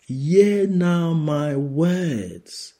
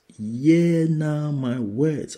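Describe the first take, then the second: First: High, slow, loud proclamation; preaching. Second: High, slow proclamation with a rising end; preaching. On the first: Preacher voicing the Lord to the congregation, slow and high. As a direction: lift the words up slowly. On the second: Preacher repeating the Lord's words, slow and rising. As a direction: repeat it slowly, ending up. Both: Acted.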